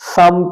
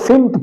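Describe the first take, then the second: First: The first vowel is an 'a' sound. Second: The first vowel is an 'i' sound. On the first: The speaker calls it right. "दुरुस्त लफ्ज है समत" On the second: The speaker calls it wrong. "लोग इसको सिमत पढ़ते हैं"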